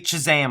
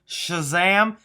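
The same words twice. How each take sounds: First: The word begins with a hard 'ch' sound. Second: The word begins with a soft 'sh' sound. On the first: The speaker calls it wrong. "I say it like if I'm saying cheese instead of shh" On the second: The speaker calls it right. "I know I could do Shazam"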